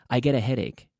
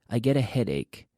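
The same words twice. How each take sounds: No difference in how they are said.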